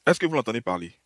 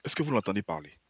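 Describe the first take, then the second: First: Mocking disbelief at the clip; insistent repeat. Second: Said in the usual way. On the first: Real, not acted. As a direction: repeat the question, pushing it harder. Repeats question to audience.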